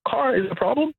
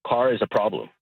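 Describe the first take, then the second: First: Car pitched very high in mocking disbelief; incredulous mock question. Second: Said in the usual way. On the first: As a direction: throw the question up high, scoffing at the rule. Caller mocks the rule in disbelief.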